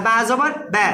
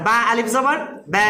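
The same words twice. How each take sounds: First: "ব্যা" cut short after the spelling; "ব্যা" with no lengthening; short vowel. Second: "ব্যা" held long after the spelling; lengthened vowel. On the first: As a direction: spell it, then a brief "ব্যা". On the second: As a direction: spell it, then stretch "ব্যা". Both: Shown as a demonstration. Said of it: "এই যে লম্বা করলাম".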